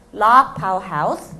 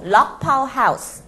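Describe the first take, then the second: First: 락파우 하우스 repeated, 락 as in 도어락, rising end; pron repeat. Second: 락파우 하우스 with 락 said like door-lock 락; pron demo. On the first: Teacher repeating 락파우 하우스 for the class. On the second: Teacher modelling 락파우 하우스, 락 like 도어락. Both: Shown as a demonstration. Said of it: "로그가 아니고 락".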